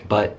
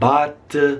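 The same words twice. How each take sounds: First: The vowel is very quick and short. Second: The vowel is drawn out and long. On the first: The speaker calls it right. "You can just say but real quick, fast" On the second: The speaker calls it wrong. "A lot of Italians that I've spoken to kind of say like but"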